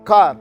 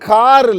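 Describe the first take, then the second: First: The final r sound is dropped. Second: The final r sound is strongly pronounced. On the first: The speaker calls it right. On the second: The speaker calls it wrong.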